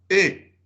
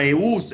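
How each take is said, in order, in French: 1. Le mot finit sur la voyelle, pas de son s. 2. Le mot finit par un son s audible. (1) "E, nada más" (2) "No quiero escuchar eus"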